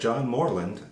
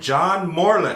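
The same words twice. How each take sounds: First: The name is said casually, without special force. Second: The name is said firmly, with confident authority.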